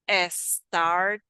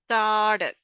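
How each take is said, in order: First: An extra vowel sound comes before the s. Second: The word begins directly with the s sound. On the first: The speaker calls it wrong. "it's not S started. That's not" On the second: The speaker calls it right. "Should be sta, sta"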